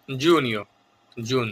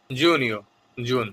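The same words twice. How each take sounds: First: Said in the usual way. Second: জুনিও drawn out slowly, every syllable clear; slow careful repeat. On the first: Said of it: "এই শব্দগুলি একটু critical". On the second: Shown as a demonstration. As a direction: spell out জুনিও very slowly for learners. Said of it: "খেয়াল করে শুনবেন এবং বারবার অনুশীলন করবেন".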